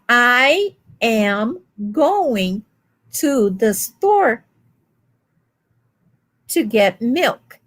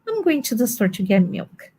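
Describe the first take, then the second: First: Each word is separate and evenly stressed. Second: The words run together in one smooth flow. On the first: The speaker is not a native speaker. "That's how a foreigner would say" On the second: The speaker is a native speaker. "an American would just go, there's a little flow there"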